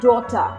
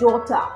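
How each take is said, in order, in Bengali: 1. T স্পষ্ট থাকে এবং R বাদ পড়ে। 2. T স্পষ্ট থাকে এবং R বাদ পড়ে।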